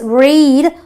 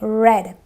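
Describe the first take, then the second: First: The vowel is a long e sound. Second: The vowel is a short e sound. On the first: It is the present tense. "which is my long e" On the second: It is the past tense. "but otherwise it is a read"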